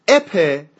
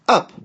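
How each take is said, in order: First: The vowel sounds like the 'e' in 'bet'. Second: The vowel is a short, quick 'uh'. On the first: The speaker calls it wrong. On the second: The speaker calls it right.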